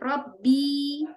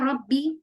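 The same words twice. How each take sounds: First: The final vowel is drawn out long. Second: The final vowel is kept short. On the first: My Lord is Musa. The speaker calls it wrong. "Ada yang manjangin, misalkan ya salah baca" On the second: The Lord of Musa. The speaker calls it right. "harusnya Robbi"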